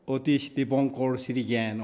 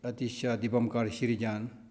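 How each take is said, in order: First: The name begins with an 'oh' vowel sound. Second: The name begins with an 'ah' vowel sound. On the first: "the proper pro- Bengali pronunciation is Otish Dibonkor" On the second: "it's called"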